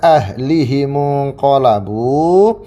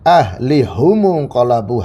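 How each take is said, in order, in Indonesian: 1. Vokal i mengikuti h, u mengikuti m. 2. Vokal u mengikuti h, u mengikuti m. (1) "seperti biasa kita baca" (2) "hanya di dhamma sama mimnya"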